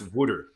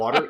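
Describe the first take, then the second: First: It sounds like 'wooder' with a rounded vowel. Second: The middle sounds like a plain 't'. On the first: The speaker calls it right. "It's wooder" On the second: The speaker calls it wrong. "it's not water"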